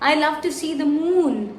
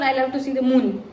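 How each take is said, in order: First: The vowel in moon is long. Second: The vowel in moon is short. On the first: The speaker calls it right. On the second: The speaker calls it wrong.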